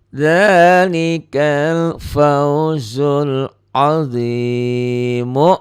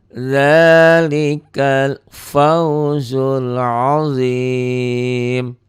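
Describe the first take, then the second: First: The last word ends with a final vowel. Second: The last word ends on a bare consonant. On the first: The reading continues into the next phrase. "kalau mau gabung ya, mau wasal dengan kalimat berikutnya" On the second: The reading stops here. "kalau berhenti membacanya"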